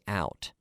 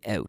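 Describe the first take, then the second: First: The vowel is said the American way. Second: The vowel is said the Canadian way. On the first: "Americans would say out" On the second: "I say out"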